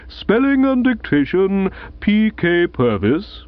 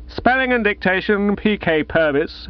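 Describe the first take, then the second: First: Formal announcement, slow on the name; announcing. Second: Echoed like a street hawker calling coals. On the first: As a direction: read the prize out like a headmaster. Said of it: "announced the bearded bloke". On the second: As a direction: sing it out like a coal seller. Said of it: "as if he were calling coals". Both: Acted.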